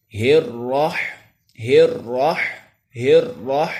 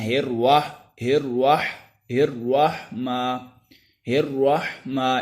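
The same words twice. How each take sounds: First: ہر راہ with the ra drawn out one alif, a bit louder; correct long ra. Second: ہر واہ with ra turned into wa, lazily; careless wrong reading. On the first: Teacher demonstrating the correct lengthened ra. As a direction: stretch the ra of ہر راہ clearly. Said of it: "کھڑی زبر کو ایک الف کے برابر لمبا کرتے ہیں". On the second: Teacher imitating students' careless wrong reading. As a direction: mimic the careless ہر واہ mistake. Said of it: "اس طرح پڑھ دیتے ہیں، حالانکہ یہ بالکل غلط ہے". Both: Shown as a demonstration.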